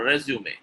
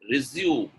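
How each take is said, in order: First: RESUME in three syllables, ending in "may"; correct pronunciation. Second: RESUME in two syllables, like the verb; wrong pronunciation. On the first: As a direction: say RESUME as "REZ-yoo-may". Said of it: "Resume is correct". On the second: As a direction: say RESUME as "re-ZYOOM". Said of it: "getting the number two right". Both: Shown as a demonstration.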